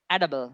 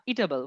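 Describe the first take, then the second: First: Edible with a short "e" at the start; correct pronunciation. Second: ইটেবল with a long "ee" at the start; wrong pronunciation. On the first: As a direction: say edible as "EH-duh-bul". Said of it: "শুদ্ধ উচ্চারণটা কি বলুন". (edible, শুরুতে ছোট "এ" দিয়ে শুদ্ধ উচ্চারণ "এডেবল") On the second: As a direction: say ইটেবল as "EE-table", like "eatable". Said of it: "আমি আগে ভুল করে পড়তাম". (ইটেবল, শুরুতে লম্বা "ঈ" দিয়ে ভুল উচ্চারণ) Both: Shown as a demonstration.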